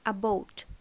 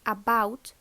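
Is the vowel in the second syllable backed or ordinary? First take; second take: backed; ordinary. First: The second vowel is pulled far back. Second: The second vowel is an ordinary ow diphthong.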